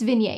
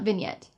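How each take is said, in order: First: The final T sound is left silent. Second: The final T sound is clearly pronounced. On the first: The speaker calls it right. "It's vignette" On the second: The speaker calls it wrong. "it's not vignette. You don't say the T"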